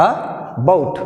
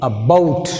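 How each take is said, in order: First: Said in the usual way. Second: "about" with weak a, stress on "bout". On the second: Shown as a demonstration. Teacher modelling stress in about. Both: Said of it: "Now take second word".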